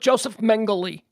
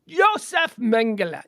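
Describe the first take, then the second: First: The name is pronounced the American way. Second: The name is pronounced the German way.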